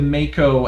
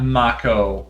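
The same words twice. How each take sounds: First: It is pronounced like the shark's name. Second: It is pronounced like the actor's name. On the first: The speaker calls it right. "as in the type of shark" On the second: The speaker calls it wrong. "like uh, the uh, deceased but beloved actor"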